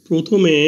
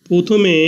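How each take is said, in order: Both takes have the same delivery.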